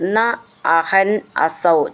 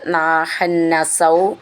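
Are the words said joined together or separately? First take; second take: separately; joined. First: The words are said separately, each on its own. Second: The words are run together into one word.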